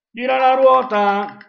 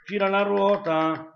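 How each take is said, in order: First: Game show host. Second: Said in the usual way. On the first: Pretend. Spinning the quiz wheel.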